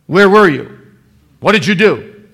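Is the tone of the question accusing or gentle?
accusing. The questions sound harsh and accusing. The asker is suspicious and demanding. The speaker calls it wrong. "In that kind of tone of voice"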